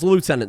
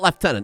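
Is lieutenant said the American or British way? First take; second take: American; British. First: It is said without an f sound, American style. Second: It is said with an f sound, British style. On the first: The speaker calls it right. "That's Lieutenant as far as I'm concerned" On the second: The speaker calls it wrong. "There's no F in that. There's not Lieutenant"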